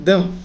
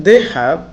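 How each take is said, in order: First: "they have" squeezed short into they've; contracted form. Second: Said in the usual way. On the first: Shown as a demonstration. Teacher shows it is said like this, "they have" as they've. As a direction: run "they have" together without the h. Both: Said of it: "উচ্চারণটা এরকম হবে".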